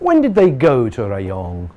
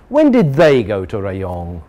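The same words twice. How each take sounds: First: The stress falls on the word when. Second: The stress falls on the word they. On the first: The asker wants to know the day of travel. "now we want to know the day of travel" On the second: The question is about a different group of people. "Now we know about a new group"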